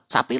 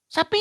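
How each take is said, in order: First: Said scornfully, like a name-calling insult. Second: Said urgently, like a sudden warning. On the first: The listener is being called a cow. "nah itu beda lagi" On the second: There is a cow ahead, be careful. "berarti hati-hati ada sapi"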